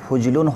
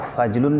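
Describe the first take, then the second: First: The first vowel is a 'u' sound. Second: The first vowel is an 'a' sound. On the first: The speaker calls it right. "फ़ा के ज़म्मा के साथ फुजलुन होना चाहिए" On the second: The speaker calls it wrong. "फजलुन नहीं"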